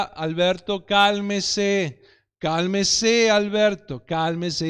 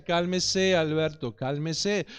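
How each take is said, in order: First: Put-on a father keeping his cool with a screaming child; calm repeated plea. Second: Patient calming. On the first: Father pleading with his son in the supermarket, patient and steady. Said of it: "lo único que decía era". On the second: Retold or imitated. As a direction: soothe him gently, almost to yourself. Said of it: "el hombre le decía".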